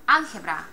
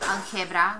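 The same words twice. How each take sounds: First: The stress is on the first syllable. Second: The stress is on the second syllable. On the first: The speaker calls it right. "we say algebra" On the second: The speaker calls it wrong. "we don't say algebra"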